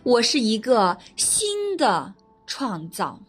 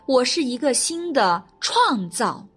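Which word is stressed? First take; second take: 新的; 创造. First: The stress is on the word 新的. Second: The stress is on the word 创造.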